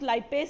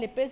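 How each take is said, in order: First: The first syllable sounds like 'lie'. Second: The first syllable sounds like 'lip'. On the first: "teacher can pronounce लाइपेस also" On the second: "आई से generally लिपेस"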